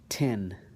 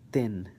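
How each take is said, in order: First: The t is released with a puff of air. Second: The t is released without a puff of air. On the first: "I'm going to do it with the T" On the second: "then I'm going to do it with the ta"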